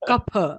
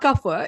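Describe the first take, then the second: First: The word is pronounced in an Indian way. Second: The word is pronounced in an English-like way. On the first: The speaker calls it right. "it's kapha" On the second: The speaker calls it wrong. "why are you talking like English people? Right? So it's not kapha"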